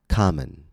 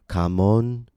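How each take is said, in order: First: The second vowel is a reduced schwa. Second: The second vowel is a full 'o' sound. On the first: The speaker calls it right. "but common" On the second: The speaker calls it wrong. "or kamon"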